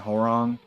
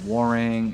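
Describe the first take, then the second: First: The name starts with a clear H sound. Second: The name starts with a W sound, no H. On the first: "My family and I grew up saying" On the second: "like have a H silent"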